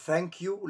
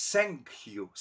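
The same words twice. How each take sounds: First: Said in the usual way. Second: "thank" said with an S, like "sank"; German-accented TH. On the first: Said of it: "αντί να πει thank you". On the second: Retold or imitated. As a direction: say "thank you" as "sank you", drawn out. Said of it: "με το S". ("thank" με σίγμα αντί για θήτα, γερμανική προφορά)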